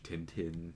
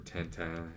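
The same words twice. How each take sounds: First: Tintin said English-style, TIN-tin with clear n sounds; English pronunciation. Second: Tintin said French-style, tan-tan with nasal vowels; French pronunciation. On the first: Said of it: "It's in French, Tintin, or Tintin if you're French". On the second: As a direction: say Tintin as the French do, final n swallowed. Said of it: "if you're French". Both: Shown as a demonstration.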